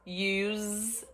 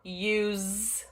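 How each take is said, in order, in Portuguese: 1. A palavra termina com som de Z. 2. A palavra termina com som de Z.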